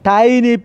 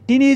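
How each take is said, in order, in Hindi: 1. पहला स्वर लंबा है, 'eye' की तरह। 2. पहला स्वर छोटा है, 'tin' की तरह।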